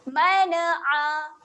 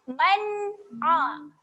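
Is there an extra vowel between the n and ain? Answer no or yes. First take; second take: yes; no. First: An extra vowel is inserted after the n sound. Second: The n closes cleanly with no added vowel after it. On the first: The speaker calls it wrong. "Kalau kita tak bacakan jelas, boleh terjadinya lantunan mana'a" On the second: The speaker calls it right. "Bacakan jelas"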